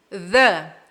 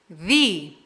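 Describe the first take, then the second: First: "the" with a short uh, said alone; "the" as thuh. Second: "the" rhyming with "see", said alone; "the" as thee. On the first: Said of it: "a segunda pronúncia é". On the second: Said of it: "Percebe o som mais aberto". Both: Shown as a demonstration.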